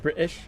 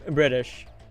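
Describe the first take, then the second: First: The middle T is a glottal stop. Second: The middle T is a D-like flap. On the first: "that's more of a glottal stop with British" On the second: "the southern way would be British. You change the T to a D"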